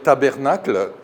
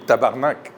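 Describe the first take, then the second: First: The word is said in full, ending in '-nacle'. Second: The word is clipped, ending in a short '-nak'. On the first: An outsider imitating the swear word. The speaker calls it wrong. "quand les Français veulent imiter le sacre québécois, par exemple, ils vont dire tabernacle" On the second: The way locals actually say the swear word. The speaker calls it right. "on dit tabarnak"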